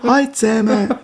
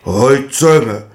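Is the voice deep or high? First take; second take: high; deep. First: It is said in a high voice. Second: It is said in a deep voice.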